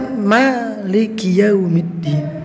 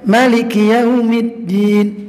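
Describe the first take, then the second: First: The first vowel of Maliki is long. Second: The first vowel of Maliki is short. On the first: It means owner of the Day of Judgment, a wider meaning. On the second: It means king of the Day of Judgment.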